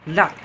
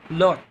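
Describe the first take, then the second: First: The vowel is said with unrounded lips. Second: The vowel is said with rounded lips. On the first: This is how Americans say it. "they are pronouncing it as normal as lot" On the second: This is how the British say it. "in British English, they are rounding the vowels like lot"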